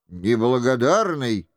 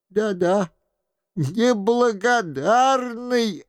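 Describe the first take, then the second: First: Meek reproach. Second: Slow, drawn-out exclamation; the old man agrees with feeling, slowly; emphatic exclaim. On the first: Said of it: "с выражением кроткого упрёка". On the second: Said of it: "отвечал старик". (медленно, с чувством) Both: A narrator's reading.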